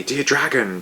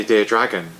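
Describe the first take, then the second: First: Sung in a howling chorus; sung, howl dear dragon like the monsters. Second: Said in the usual way. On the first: A narrator's reading. Sung, monsters howling the birthday song to the dragon. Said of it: "howled in a cacophonous chorus". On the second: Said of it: "different from the human birthday song".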